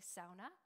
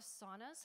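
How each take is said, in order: First: It is said the Thunder Bay way. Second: It is said in a general Canadian way.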